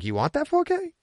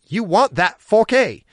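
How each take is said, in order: First: It is asked as a rising question. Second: It is said as an emphatic exclamation.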